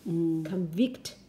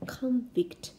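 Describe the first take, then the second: First: The stress is on the second syllable. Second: The stress is on the first syllable. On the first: It names the act of finding someone guilty. "如果你把它读在第二个音节，它就变动词了" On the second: It names a person who has been sentenced. "这个读的时候重音放在第一个音节啊"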